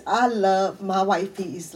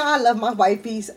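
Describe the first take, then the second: First: "I love my wifeys" said very slowly; emphatic sincerity. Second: Said in the usual way. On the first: Real, not acted. Telling viewers she truly loves her friends, "I love my wifeys" slow and emphatic. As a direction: draw out each word of "I love my wifeys" to mean it. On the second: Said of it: "when I tell y'all I love my wifeys".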